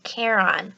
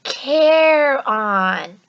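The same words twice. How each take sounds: First: Said in the usual way. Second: "Care on" drawn out loud, stress on care; Care on, pronounced. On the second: Shown as a demonstration. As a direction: coach them: "Care on" said slowly and clearly. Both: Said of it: "Say it with me".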